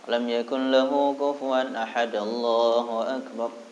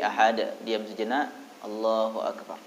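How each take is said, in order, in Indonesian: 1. Allahu akbar langsung mengikuti ahad tanpa jeda. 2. Ada jeda singkat setelah ahad. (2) "Jadi ahad, diam sejenak, Allahu akbar"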